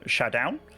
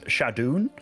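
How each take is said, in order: First: The last syllable sounds like 'own'. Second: The last syllable sounds like 'oon'. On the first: The speaker calls it wrong. "I always called Shadowne like uh" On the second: The speaker calls it right. "but then apparently it's"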